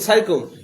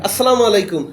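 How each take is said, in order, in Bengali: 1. শুভেচ্ছাটি ছোট করে একটা অস্পষ্ট গুনগুন শব্দে বলা হয়। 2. শুভেচ্ছাটি পুরোটা বলা হয়, প্রতিটি সিলেবল স্পষ্ট করে।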